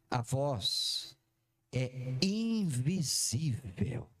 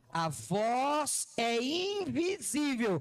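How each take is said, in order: First: Low, slow, drawn-out reveal. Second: "invisível" stretched out long, each syllable weighted; slower, emphatic. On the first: Preacher unveiling the big revelation, slow. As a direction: let each word sink in slowly. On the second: Preacher repeating so the congregation gets it, emphatic. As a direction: repeat it slow and pointed, leaning on "invisível". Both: Shown as a demonstration. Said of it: "Não, acho que você não entendeu".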